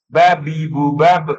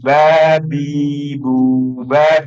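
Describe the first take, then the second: First: The vowels are short. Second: The vowels are slightly longer. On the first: The speaker calls it wrong. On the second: The speaker calls it right. "Panjang sedikit"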